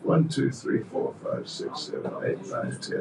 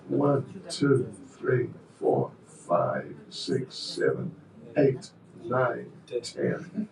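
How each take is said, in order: First: The counting is very fast. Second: The counting is slow and deliberate.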